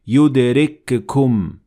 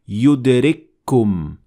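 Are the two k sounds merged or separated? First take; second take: separated; merged. First: The two k sounds are pronounced separately. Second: The two k sounds merge into one doubled k. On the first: The speaker calls it wrong. "we don't say yudrikkum. That is not correct" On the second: The speaker calls it right. "that's why we say yudrikkum"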